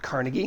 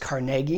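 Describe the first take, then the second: First: The name is said the non-Pittsburgh way. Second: The name is said the Pittsburgh way. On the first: The speaker calls it wrong. "not Carnegie" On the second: The speaker calls it right. "if you're from Pittsburgh, you know it's Carnegie"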